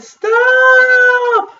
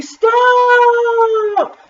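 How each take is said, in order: First: High, loud, long-held yell; yell at full volume. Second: High, long-held yell; very loud yell. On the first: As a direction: yell it as loudly as you can. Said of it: "yelled as loudly as she could". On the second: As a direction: hold the word in a high yell. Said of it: "Taya yelled very loudly". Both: A narrator's reading.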